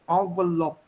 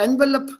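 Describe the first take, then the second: First: The word is said in a French style. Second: The word is said in an English style. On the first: This is the word's original form. "the original pronunciation of this word is envelope" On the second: A shopkeeper in India understands it. "If I say envelope, give me envelope, Baba, envelope, he will give me whatever I want"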